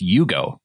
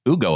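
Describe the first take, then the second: First: The name starts with a 'y' sound. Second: The name starts with a plain vowel sound. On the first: The speaker calls it wrong. "it's Yugo, like the car" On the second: The speaker calls it right. "it isn't Ugo Amadi"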